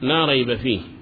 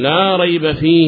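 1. تنتهي الكلمة على الهاء دون حركة. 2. تُمدّ الحركة الأخيرة فتصير ياءً طويلة. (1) "أما عند الوقف فيقول" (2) "فهو أشبع الكسرة حتى تولدت ياء"

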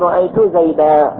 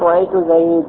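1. تنتهي الكلمة الأخيرة بألف طويلة -a. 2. تنتهي الكلمة الأخيرة بحرف ساكن بلا حركة. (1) "إذا أردت الوقف تقول رأيت زيدا" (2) "فإنهم يقفون بالسكون"

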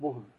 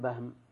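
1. الصوت الأول هو 'u' مدوّر الشفتين. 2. الصوت الأول هو 'a' مفتوح. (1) "بضم الباء بلا خلاف" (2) "ما تقول بهم. لماذا البهم بفتح الباء؟"

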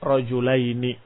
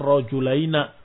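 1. Kata terakhir diakhiri vokal i. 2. Kata terakhir diakhiri vokal a. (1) "yang masyhur dengan kasrah" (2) "Walaupun ada dialek"

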